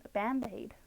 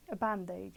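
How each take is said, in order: First: American accent. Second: Said in the usual way. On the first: Shown as a demonstration. Streamer shows viewers the American word for a plaster, American accent. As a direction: say Band-Aid in a put-on American accent. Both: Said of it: "gonna say an American accent".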